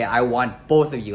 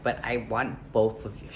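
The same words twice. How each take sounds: First: Louder, outraged repeat of someone's words; indignant quote. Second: Said in the usual way. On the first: Retold or imitated. Man repeating girlfriend's audacious request, indignant and louder. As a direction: throw the words back in disbelief. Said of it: "She had the audacity to say". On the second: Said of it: "And she's like".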